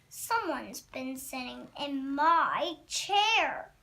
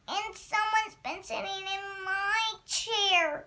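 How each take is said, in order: First: It is said in a medium-sized voice. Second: It is said in a wee small voice.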